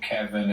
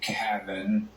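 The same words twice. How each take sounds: First: The name is pronounced in the standard way. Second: The name is said with an imitated altered vowel. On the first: This is the name as it really is. The speaker calls it right. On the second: Someone else says the name this way. The speaker calls it wrong.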